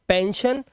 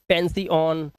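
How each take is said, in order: First: The word ends with a single 'shun' sound. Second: The word ends with separate 'see-on' sounds. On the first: The speaker calls it right. "शन की आवाज निकाल रहे हैं" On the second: The speaker calls it wrong. "अब इसे ऐसे नहीं पढ़ेंगे"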